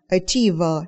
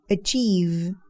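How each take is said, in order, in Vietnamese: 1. Có thêm một âm nguyên âm sau v. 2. Từ kết thúc gọn ở âm v. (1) "đừng đọc là"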